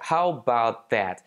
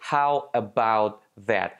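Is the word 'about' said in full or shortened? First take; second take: shortened; full. First: The word 'about' is shortened to 'bout. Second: The word 'about' is said in full.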